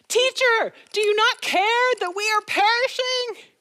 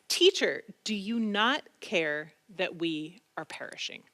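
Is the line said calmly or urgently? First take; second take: urgently; calmly. First: It is said urgently, with alarm. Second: It is said calmly, without alarm.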